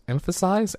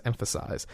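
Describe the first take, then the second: First: Emphasize, asked with a doubtful rise; Emphasize tried as a question; unsure emphasize. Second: Emphasize, breathed under the breath, falling; Emphasize whispered as the right word. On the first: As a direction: test the word Emphasize, questioning. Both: Real, not acted. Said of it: "That's the word".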